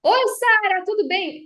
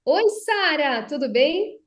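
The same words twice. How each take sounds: First: Loud, high yelled greeting; shouting greeting. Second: Slow, full projected greeting, not a yell. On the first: Speech coach demos shouting a greeting to Sara, loud high yell. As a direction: shout the hello across the room. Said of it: "Por exemplo, se eu tô aqui e falo". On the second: Speech coach demos projecting from the diaphragm, steady and full. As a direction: project from the diaphragm, louder but controlled. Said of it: "Se eu só projeto a minha voz". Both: Shown as a demonstration.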